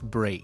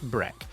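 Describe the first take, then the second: First: It sounds unlike the first part of breakfast. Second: It sounds like the first part of breakfast. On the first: It is the word on its own. "When it's alone, it's break" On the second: It is the first part of the longer word. "in breakfast it's pronounced break"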